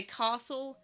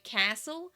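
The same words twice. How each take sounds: First: CASTLE with a long open "ah"; South Australian "ah". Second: CASTLE with the "a" of cat; short A in castle. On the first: Showing how South Australians talk, CASTLE with long "ah". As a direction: say CASTLE as "cah-sel". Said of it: "you say castle". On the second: Showing what South Australians avoid, CASTLE with a short "a". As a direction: say CASTLE as "cassle", tune rising. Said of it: "you don't say castle". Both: Shown as a demonstration.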